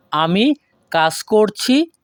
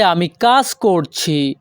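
First: A clear gap after আমি, then কাজ করছি; broken by pause. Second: Said in the usual way. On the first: Shown as a demonstration. Teacher repeats the sentence to learners, pausing after the subject. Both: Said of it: "পরবর্তীতে আছে".

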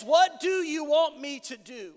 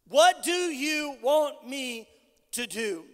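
First: Said in the usual way. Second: Slow, weighted question. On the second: Acted. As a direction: draw out "What do you want me", then drop on "to do". Same question repeated slowly for weight.

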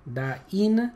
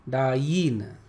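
First: "dine" split as daa-EEN, rising at the end; "dine" with a lifted, stretched "een"; emphasis on E. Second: "dine" as daa-YEEN, falling at the end; drawn-out "dine" with a y-glide and a fall; emphasis on Y. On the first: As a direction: lean on the "ee" in "dine", pitch going up. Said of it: "ई के ऊपर emphasise". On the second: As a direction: glide into a stressed "y" in "dine", pitch dropping. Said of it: "वाई के ऊपर emphasise". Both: Shown as a demonstration.

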